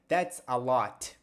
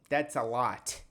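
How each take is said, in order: First: The final T is released with clear force. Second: The same.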